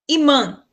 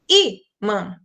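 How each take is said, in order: First: The stress is on the last syllable. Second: The stress is on the first syllable. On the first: The speaker calls it wrong. "o an seria mais forte" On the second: The speaker calls it right. "mas eu digo imã. Então, o i é mais forte"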